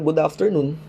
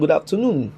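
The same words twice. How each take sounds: First: It is said in an American English accent. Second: It is said in a British English accent. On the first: The caller is American. "instead na good afternoon" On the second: The caller is British. "kapag ka British accent naman siya"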